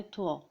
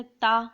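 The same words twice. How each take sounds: First: تھوا with a heavy, rounded, full sound; thick, full-mouthed tua. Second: TAA said thin and plain, without heaviness; simple, light taa. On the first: Teacher contrasting it with تا, thick and full. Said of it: "تھوا کو تھوڑا موٹا کر کے". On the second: Teacher showing parents how to teach تا, simple and light. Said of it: "بہت ہی simple طریقے سے پڑھنا ہے". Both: Shown as a demonstration.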